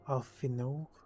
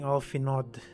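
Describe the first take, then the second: First: The name ends without a d sound. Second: The name ends with a d sound. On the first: The speaker calls it right. "it's pronounced as Alfino with a silent D" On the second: The speaker calls it wrong. "I keep on saying Alfinod"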